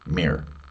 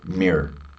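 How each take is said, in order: First: The word is said quickly in a reduced form. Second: The same.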